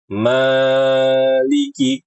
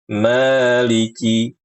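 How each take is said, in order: First: The long vowel is stretched out too long. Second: The long vowel lasts only two beats. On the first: The speaker calls it wrong. "berlebihan dalam membaca mad asli. Maliki, kepanjangan" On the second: The speaker calls it right. "Dua harokat cukup, ayun saja"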